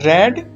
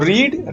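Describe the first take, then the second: First: The vowel is a short 'e' sound. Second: The vowel is a long 'ee' sound. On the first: It is the past form of the verb. "तीनों form तो देखने में समान ही है, लेकिन जो इसका उच्चारण है... वो अलग हुआ करता है" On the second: It is the present form of the verb. "जो रीड है उसकी फर्स्ट फॉर्म को हम रीडी बोला करते हैं"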